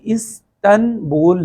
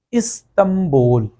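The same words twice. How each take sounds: First: استنبول said as is-tan-bol with a clear n; as written. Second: استنبول said slowly as is-tam-bol; n turned to m. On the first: Teacher shows the spelling, distinct n in استنبول. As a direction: split استنبول into parts, keep the n before bol. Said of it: "لکھنے میں آتا ہے". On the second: Teacher gives another Urdu example, m sound in استنبول. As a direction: hum an m before the b in استنبول. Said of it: "نون کی جگہ پہ میم کی آواز". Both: Shown as a demonstration.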